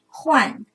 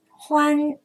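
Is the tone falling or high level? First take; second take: falling; high level. First: The syllable has a sharply falling tone. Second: The syllable has a high level tone. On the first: "四声换" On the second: "一声欢"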